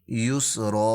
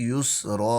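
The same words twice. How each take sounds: No difference in how they are said.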